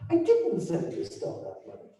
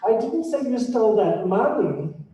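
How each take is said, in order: First: The stress is on "didn't". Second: The stress is on "money".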